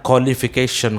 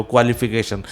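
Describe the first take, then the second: First: क्वालिफिकेशन as "kholification"; no W, KHO opens क्वालिफिकेशन; right pronunciation. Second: क्वालिफिकेशन as "kwalification"; wrong pronunciation. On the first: Teacher correcting pupils, क्वालिफिकेशन as "kholification". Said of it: "उसे बोलना है". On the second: Teacher echoing pupils' error, क्वालिफिकेशन as "kwalification". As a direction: KW glide in क्वालिफिकेशन. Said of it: "बोलते हो". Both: Shown as a demonstration.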